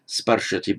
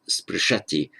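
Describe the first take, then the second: First: Sparshati with "ar" in a stressed first syllable; strengthened first vowel. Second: Sprishati with short SPRI, stressed SHA; stress on the end. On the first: Teacher repeating the hypothetical form, first-syllable stress on sparshati. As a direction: lean on SPAR in sparshati. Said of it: "strengthening the vowel from ri to ar". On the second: Teacher giving the actual sixth-class form, later stress on sprishati. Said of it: "Stress on the end". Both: Shown as a demonstration.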